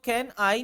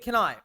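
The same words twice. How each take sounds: First: The two words are said separately. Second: The two words are joined into one sound. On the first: The speaker calls it wrong. "अब आप इसको कैन आई नहीं बोल सकते" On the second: The speaker calls it right. "कैन आई मिला देंगे इसको"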